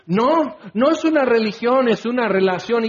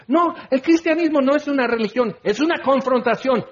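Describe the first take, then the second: First: Higher, a touch insistent mock rebuttal; mock defensive excuse. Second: Higher, proud corrected version of the slogan; bold declaration. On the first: Preacher mocking an accused believer's excuse, higher and insistent. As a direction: parody a believer dodging the charge. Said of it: "Y ahí empiezas con todos tus desvaríos y excusas". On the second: Shown as a demonstration. Preacher voicing the answer he wants believers to give, bold and high. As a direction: proclaim it with conviction, voice raised high. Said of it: "Entonces, si quieres decir".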